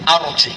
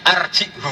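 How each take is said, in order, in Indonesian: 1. Kata ini diakhiri tanpa suku kata tambahan 'hu'. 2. Kata ini diakhiri dengan suku kata tambahan 'hu'. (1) "Imam Asim baca arji" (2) "sebagian qiraah itu arjihu"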